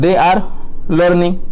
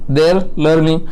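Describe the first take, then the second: First: They are is said as two full words. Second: They are is contracted into one syllable.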